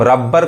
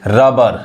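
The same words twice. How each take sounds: First: रबर with both b's sounded; रबर wrongly split on a doubled b; wrong double-b pronunciation. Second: रबर with only one b sounded; रबर without doubling the b; single-b pronunciation. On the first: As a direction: say रबर as rab-bar, doubling the b. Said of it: "गलत हो जाएगा". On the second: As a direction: say रबर as ra-bar, one light b. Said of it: "एक ही बी पढ़ेंगे". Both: Shown as a demonstration.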